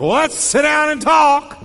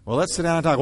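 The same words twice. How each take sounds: First: Much higher and louder, shouting; shouted invitation. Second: Said in the usual way. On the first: Shown as a demonstration. Pastor demonstrates the wrong volume to the congregation, shouting. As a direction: yell the calm words angrily. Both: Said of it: "the volume you use".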